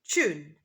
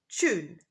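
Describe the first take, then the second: No difference in how they are said.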